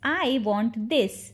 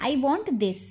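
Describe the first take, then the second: First: Drawn-out, slow demonstration; slow model repeat. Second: Said in the usual way. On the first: Shown as a demonstration. Teacher repeats the translation for learners, slowly. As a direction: stretch each word for learners.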